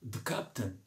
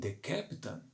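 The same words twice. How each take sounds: First: The word 'the' is reduced and barely heard. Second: The word 'the' has a clear, full vowel. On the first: "eles dizem the captain ... você quase não percebe o artigo" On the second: "eles não dizem the captain"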